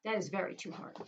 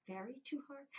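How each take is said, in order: First: Said in the usual way. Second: "Very too hard?" asked back, higher and much softer; puzzled question. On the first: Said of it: "Ooh, that's too hard". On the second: Shown as a demonstration. Teacher musing aloud to kids, puzzled. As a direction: quiz yourself on the odd phrase.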